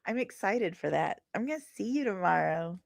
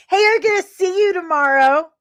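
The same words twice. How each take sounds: First: Plain. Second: High, loud, eager promise; excited. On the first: Repeats it to himself, quietly. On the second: Telling a viewer he'll see them tomorrow, excited and loud. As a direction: call it out, thrilled to meet them. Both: Real, not acted.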